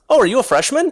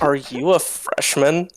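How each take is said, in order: First: It sounds friendly and curious. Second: It sounds snide and condescending.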